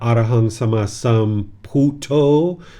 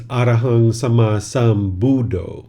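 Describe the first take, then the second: First: It is pronounced the way it is in Thailand. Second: It is pronounced the way it is in Sri Lanka. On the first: "which is what you hear in, in Thailand" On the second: "if you go to Sri Lanka"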